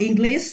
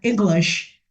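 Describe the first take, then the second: First: The word ends without a clear sh sound. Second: The word ends with a clear sh sound. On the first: The speaker calls it wrong. "not English" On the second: The speaker calls it right. "but English. S H sound"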